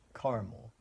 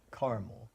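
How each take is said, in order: First: It is said with a Californian pronunciation. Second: The same.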